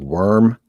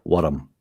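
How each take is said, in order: First: Said in the usual way. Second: Worm said as "wurrum" with a rolled R; Scottish rolling R. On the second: Shown as a demonstration. Scots guest teaching the rolled R on worm. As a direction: roll the R in worm till it splits in two. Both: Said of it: "a rolling R".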